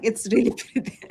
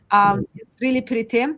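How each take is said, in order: First: Quick words broken by a laugh. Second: Said in the usual way. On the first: Real, not acted. Guilty laugh while admiring the manuscript. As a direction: laugh through it, a little sheepish.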